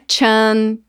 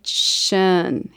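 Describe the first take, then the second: First: The suffix begins with a ch sound. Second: The suffix begins with an sh sound. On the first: The speaker calls it wrong. "Não é chan" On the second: The speaker calls it right. "O som deste sufixo é shan"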